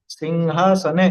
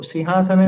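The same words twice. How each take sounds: First: The word is said with a little more force. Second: The word is said lightly, without extra force. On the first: The speaker calls it right. "थोड़ा सा जोर दे करके उसको बोलेंगे" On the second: The speaker calls it wrong. "सिंहासने नहीं"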